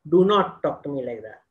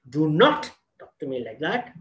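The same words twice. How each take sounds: First: The sentence is level with no stressed word. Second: The word 'not' carries strong stress. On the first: "Our language is flat" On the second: "there is a stress in the not"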